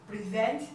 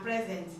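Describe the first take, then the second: First: "Present" as pri-ZENT; verb pronunciation. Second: "present" as PREZ-ent; noun pronunciation. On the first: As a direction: stress the second syllable of "Present", as in the verb. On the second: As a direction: stress the first syllable of "present", as in the noun. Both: Shown as a demonstration. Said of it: "different pronunciation and different meaning".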